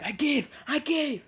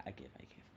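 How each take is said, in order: First: Much higher, loud yelping give-up; high surrender cry. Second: Much softer, lower, whispered; muttered correction. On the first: Character giving up mid-fight, high loud yelp. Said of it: "then she's like". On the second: Storyteller taking back the wrong line, whispered. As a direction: mumble it to take it back. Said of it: "No, he doesn't say". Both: Retold or imitated.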